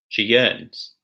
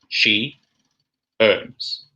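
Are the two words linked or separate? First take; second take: linked; separate. First: The words are joined by a linking y sound. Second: The words are said apart with no linking sound. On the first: "Now in connected speech" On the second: "the words said separately"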